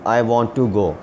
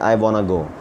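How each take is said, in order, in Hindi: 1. 'Want to' दो पूरे शब्दों की तरह बोला जाता है। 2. 'Want to' घुलकर 'wanna' बन जाता है। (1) "एक लफ्ज़ होता है वांट टू" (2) "वांट टू को ये वाना पढ़ देंगे"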